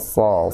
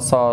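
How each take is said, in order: First: The tongue root rises, giving a heavy sound. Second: The tongue root stays low, giving a plain sound. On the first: The speaker calls it right. "Pangkal lidahnya naik" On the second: The speaker calls it wrong. "Pangkal lidahnya nggak naik"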